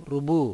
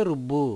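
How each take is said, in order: First: రుబు with a short single బ, no stress; single b, no doubling. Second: రుబ్బు with the బ్బ held and doubled. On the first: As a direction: say రుబు lightly, బ not doubled. (రుబు ఒత్తు లేకుండా పలకండి) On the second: (రుబ్బు లో బ్బ ఒత్తి పలకండి) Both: Shown as a demonstration. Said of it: "బుకి బావుతిస్తే రుబ్బు".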